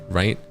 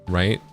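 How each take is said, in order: The two takes are said the same way.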